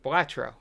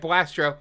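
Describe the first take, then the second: First: No s sound comes before the t. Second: An s sound comes before the t. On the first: The speaker calls it right. "say uh, Blastro correctly, or Blatro" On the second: The speaker calls it wrong. "I put the S in it there because I was nervous"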